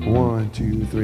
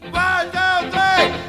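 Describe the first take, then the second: First: It is counted flatly, without enthusiasm. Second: It is counted with lively enthusiasm.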